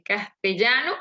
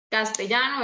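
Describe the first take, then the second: First: "castellano" with the LL said as a palatal LY sound; distinct double L. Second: Said in the usual way. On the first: Shown as a demonstration. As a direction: give the LL in "castellano" its old LY sound. ("castellano" con la LL palatal, no como Y) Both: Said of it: "ellos podrían pronunciar".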